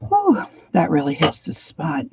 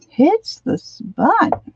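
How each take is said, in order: First: Said in the usual way. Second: High, slow sing-song; drawn-out silly echo. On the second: Shown as a demonstration.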